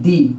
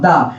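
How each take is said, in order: First: The word ends in a long 'ee' vowel. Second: The word ends in a short 'uh' vowel. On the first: The next word starts with a vowel sound. "বাওয়াল sound গুলো আসে তখন দি এর উচ্চারণ করবা কি, দি" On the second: The next word starts with a consonant sound. "যখন consonant উচ্চারণ আসবে তখন বলবা দা"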